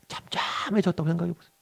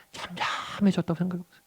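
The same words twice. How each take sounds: The two takes are said the same way.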